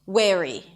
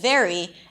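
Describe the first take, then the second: First: The word begins with a W sound. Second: The word begins with a V sound. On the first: The speaker calls it wrong. "they also use a W when there is a V sound. Wary instead of very" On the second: The speaker calls it right. "instead of very"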